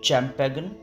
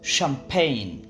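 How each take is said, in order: First: The word begins with a ch sound. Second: The word begins with an sh sound. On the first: The speaker calls it wrong. "নিশ্চয়ই আপনি ভাবছেন শব্দটির উচ্চারণ হবে" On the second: The speaker calls it right. "শব্দগুলোর সঠিক উচ্চারণ"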